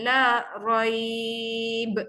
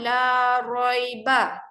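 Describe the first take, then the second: First: The final syllable ends with a consonant. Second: The final syllable ends with a vowel. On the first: This is the form used when stopping on the word. "Ba tu kena matikan" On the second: This is the full form read without stopping. "asal perkataan la roiba"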